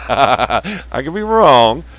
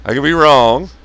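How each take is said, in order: First: Slow, laughing through it. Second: Said in the usual way. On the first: Real, not acted. Laughing off his own prediction. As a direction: chuckle out the words.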